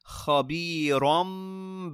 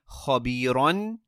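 First: The word ends with an m sound. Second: The word ends with an n sound. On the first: The word is joined to the following word. "But when we join them" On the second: The word stands alone, not joined to the next.

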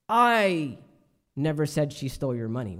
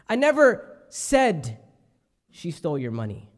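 First: The word "I" carries the main stress. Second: The word "said" carries the main stress. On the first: Someone else said it. "I didn't say it. Perhaps somebody else said it" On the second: It was only hinted at, not said. "I may have alluded to it"

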